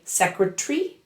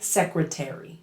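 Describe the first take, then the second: First: The vowel in the ending is dropped. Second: The vowel in the ending is fully pronounced. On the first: "British speakers say" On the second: "Americans say"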